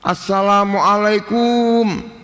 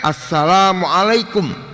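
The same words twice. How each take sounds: First: The final syllable is drawn out long. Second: The final syllable is kept short. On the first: The speaker calls it wrong. "jangan dipanjangkan yang terakhir. Mungkin karena pengaruh Jawa barangkali" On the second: The speaker calls it right. "Nggak ada wawunya. Pendek. Nah itu yang benar"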